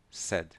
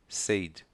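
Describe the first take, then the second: First: The vowel is short and quick. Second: The vowel is drawn out and long. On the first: The speaker calls it right. "Rápido" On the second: The speaker calls it wrong. "Não é said"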